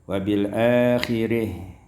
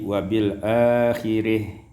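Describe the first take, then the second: The two takes are said the same way.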